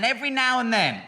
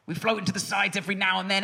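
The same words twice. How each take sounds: First: "every now and then" repeated higher, with the weight on "now"; stress on every now and then. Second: Said in the usual way. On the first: Shown as a demonstration.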